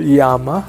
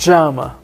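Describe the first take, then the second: First: The double L sounds like an English y. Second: The double L sounds like an English sh. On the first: "You can you can use Y for L" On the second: "or you can use sh"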